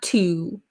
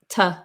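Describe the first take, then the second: First: It has a full rounded oo vowel. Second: It has a short relaxed uh vowel. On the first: "Not to" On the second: "but t"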